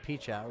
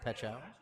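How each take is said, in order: First: The first syllable sounds like 'peach'. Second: The first syllable sounds like 'pet'. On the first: The speaker calls it wrong. "I was uh, going the other direction" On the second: The speaker calls it right. "the proper pronunciation of uh"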